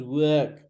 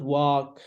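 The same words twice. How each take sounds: First: "work" as wuhhk, falling; correct work. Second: "work" with an open back vowel; mispronounced work. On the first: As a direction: work with a long central 'er', no r. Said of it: "The voice goes down". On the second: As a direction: work as walk, with an 'aw' vowel. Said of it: "This is not work". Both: Shown as a demonstration.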